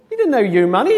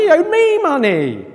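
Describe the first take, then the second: First: YOU picked out in indignant contrast; stress on YOU. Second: ME pushed high and loud; stress on ME. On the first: Creditor corrects the would-be forgiver, stressing "you". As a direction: hit "you" hard, raised pitch. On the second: Creditor claims the debt as his, stressing "me". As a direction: hit "me" hard in indignant protest. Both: Acted.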